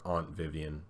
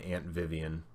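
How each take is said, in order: First: Aunt is pronounced in a posh, fancy way. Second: Aunt is pronounced in a plain, everyday way.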